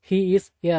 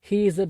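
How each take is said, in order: First: The article is said as a full 'ay'. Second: The article is said as a short 'uh'. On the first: The speaker calls it wrong. "He is ஏ அப்படிங்கிறத" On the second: The speaker calls it right. "இஸ் அப்படின்னு உச்சரிக்கணும்"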